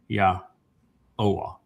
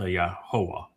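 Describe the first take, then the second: First: No h sound is heard in the middle. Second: An h sound is heard in the middle. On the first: The speaker calls it right. "so it's ya oa" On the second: The speaker calls it wrong. "not uh, yahoa"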